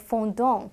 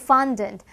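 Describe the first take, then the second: First: It is said with a French pronunciation. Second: It is said with an English pronunciation. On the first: "在法文里面它其实是念作 fondant" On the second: "翻糖的英文是 fondant"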